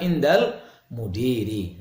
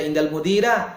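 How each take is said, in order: First: The last word ends with an 'i' vowel. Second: The last word ends with an 'a' vowel. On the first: The speaker calls it right. "tapi dibaca" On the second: The speaker calls it wrong. "Tidak boleh dibaca"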